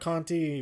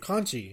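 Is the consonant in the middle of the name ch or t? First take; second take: t; ch. First: The middle consonant is a plain t sound. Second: The middle consonant is a ch sound. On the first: The speaker calls it wrong. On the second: The speaker calls it right.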